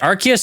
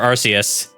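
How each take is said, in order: First: The first syllable is said like 'ark'. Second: The first syllable is said like 'arse'. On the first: "Do you say Arc" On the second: "or Arse?"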